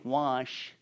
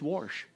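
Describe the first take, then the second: First: The word is said in a standard pronunciation. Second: The word is said in a Kentucky pronunciation. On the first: The speaker calls it wrong. "You don't say wash" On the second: The speaker calls it right. "It's wash"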